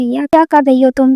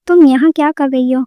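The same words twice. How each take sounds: First: A mild narrated angry cry, barely raised; angry shout. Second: A drowsy, mildly startled question; sleepy surprise. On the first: Wife catching her husband, a mild narrated angry cry. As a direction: read the wife's outburst with restrained anger. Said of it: "Reema غصے سے چلائی". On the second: Husband just woken by his wife, drowsy mild surprise. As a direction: ask it as if just woken, rubbing your eyes. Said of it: "آنکھیں ملتے ہوئے پوچھا". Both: A narrator's reading.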